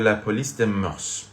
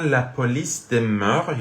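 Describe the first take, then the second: First: The final s of mœurs is pronounced. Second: The final s of mœurs is silent. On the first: "میگن د مورس اسمش تلفظ میکنن" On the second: "میگن د مور اسمش تلفظ نمیکنن"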